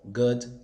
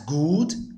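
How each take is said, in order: First: The vowel is a short uh sound. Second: The vowel is a long ooh sound. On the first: The speaker calls it right. "What sound does this make? Uh" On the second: The speaker calls it wrong. "A lot of people would pronounce good as good"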